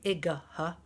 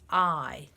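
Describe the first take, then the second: First: It is said as two syllables, ending in 'guh'. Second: It is said as one long vowel sound. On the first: The speaker calls it wrong. "we joke about this one and say igah" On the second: The speaker calls it right. "actually it says I"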